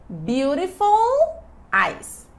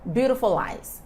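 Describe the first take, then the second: First: The words are said slowly and kept apart. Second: The words are said fast and joined together.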